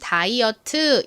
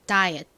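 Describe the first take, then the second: First: The word ends with a full extra 'teu' syllable. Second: The final t is very soft and barely heard. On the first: "한국식으론 다이어트 이렇게 발음을 하지만" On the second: "끝에 T가 굉장히 작게 발음이 됩니다"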